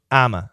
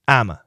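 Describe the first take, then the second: First: The phrase shrinks to two short syllables. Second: The phrase shrinks to two short syllables.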